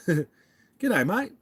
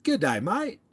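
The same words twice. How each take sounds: First: Laughing Aussie g'day mate; amateur Aussie accent; Australian accent attempt. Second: High cheery Aussie g'day mate; mock Aussie hello; amateur Aussie accent; Australian accent attempt. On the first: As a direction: laugh through a bad Aussie greeting. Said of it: "I sound like an idiot American". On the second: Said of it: "Do I sound like I'm from there?".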